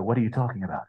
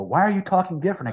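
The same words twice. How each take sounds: First: Lightly voiced nonchalant comeback; unfazed pirate reply. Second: Higher-pitched mock challenge; puzzled challenger. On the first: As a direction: toss it back, unbothered, in character. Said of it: "I go". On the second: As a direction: imitate people questioning the new voice. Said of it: "people would come up to me".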